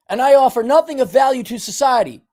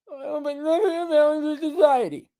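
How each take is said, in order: First: High, forceful recitation to be repeated; emphatic self-rebuke. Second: High, whiny, mangled echo; mock viewer's reply. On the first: Shown as a demonstration. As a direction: declare it high and hard, like you mean it. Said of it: "say it like you mean it". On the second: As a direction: whine it back like a reluctant pupil. Mimicking viewer repeating it.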